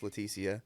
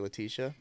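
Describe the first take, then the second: First: The name is said the way its owner uses. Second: The name is said the commonly heard way. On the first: This is how the person's name is actually said. The speaker calls it right. "but it's" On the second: This is how most people say the name. The speaker calls it wrong. "Most people mispronounce it and say"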